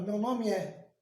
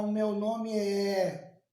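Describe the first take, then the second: First: Said in the usual way. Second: "O meu nome é" dragged out, É held long; slow, over-separated "O meu nome é"; unnatural separated vowels. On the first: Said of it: "Você fala". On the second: Shown as a demonstration. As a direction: stretch "nome é" slowly, vowels kept apart. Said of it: "Você não fala".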